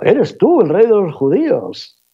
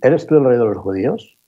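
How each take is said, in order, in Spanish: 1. Se dice como una exclamación de sorpresa. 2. Se dice como una pregunta formal neutral. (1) "Primer tono, exclamativo" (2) "Segundo tono, oficial"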